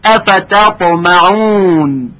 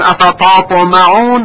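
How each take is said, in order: First: The t sound is light and thin. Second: The t sound is heavy and thickened. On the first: The speaker calls it right. "حرف ت که ترقیق میشه" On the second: The speaker calls it wrong. "اگر گفتیم افتطمعون غلط هست"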